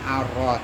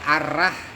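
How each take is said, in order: First: The vowel after r is thick, like 'o'. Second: The vowel after r is a thin, light 'a'. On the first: The speaker calls it right. "Jadi bacanya arroh" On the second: The speaker calls it wrong. "Kalau kemudian dibaca arrah manirrahim gitu malah justru keliru"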